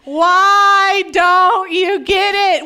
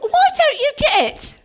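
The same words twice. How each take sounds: First: It is said without an English accent. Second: It is said in a put-on English accent. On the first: This is how it really happened. The speaker calls it right. "He's like" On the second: This is how movies portray it. The speaker calls it wrong. "all the characters have English accents"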